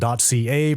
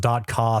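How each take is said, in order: First: It is spelled out as two letters. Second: It is said as a single word. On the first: "we pronounce .ca as the letter C A, as in .ca" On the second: "presumably because .ca sounds dumb"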